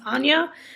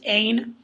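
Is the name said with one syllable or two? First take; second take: two; one. First: The name is said with two syllables. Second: The name is said as one syllable. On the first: The speaker calls it right. "her name is pronounced Anya" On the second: The speaker calls it wrong. "For the longest time, I pronounced it Ain"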